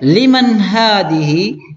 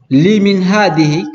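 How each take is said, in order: First: The first word has the vowel a after m. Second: The first word has the vowel i after m. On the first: The speaker calls it right. "bacanya man" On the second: The speaker calls it wrong. "jangan sampai dibaca limin ... itu keliru"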